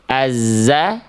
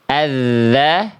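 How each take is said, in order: First: The middle consonant is a buzzing 'z' sound. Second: The middle consonant is a 'th' as in 'this'. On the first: The speaker calls it wrong. "Jangan jadi azza ... Salah. Tertukar ya" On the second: The speaker calls it right. "ujung lidah kita sentuhkan ke ujung gigi sari atas, suaranya dialirkan"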